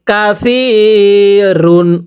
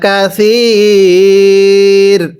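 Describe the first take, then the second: First: The word ends with an -un ending. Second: The word ends on the r sound. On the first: The reciter reads on without stopping. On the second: The reciter stops at this word.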